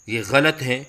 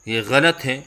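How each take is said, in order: Both takes have the same delivery.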